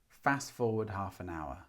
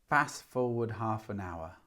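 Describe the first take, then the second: Both takes have the same delivery.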